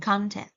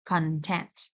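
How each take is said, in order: First: "content" as CON-tent, like the noun; first-syllable stress. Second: "content" as con-TENT, like the verb; second-syllable stress. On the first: Teacher contrasting noun with verb, CON-tent stress. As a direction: put the weight on the start of "content". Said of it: "putting the stress on the first syllable". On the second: Teacher showing Vietnamese speakers' slip, con-TENT stress. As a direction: put the weight on the end of "content". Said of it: "put the stress on the second one". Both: Shown as a demonstration.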